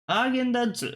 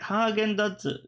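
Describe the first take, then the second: First: The pitch goes up and then down. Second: The pitch has no up-down movement. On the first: This is one person's own way of saying it. "she does it like ... the up-down inflection" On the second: This is the expected Japanese pronunciation. "you're supposed to do it like"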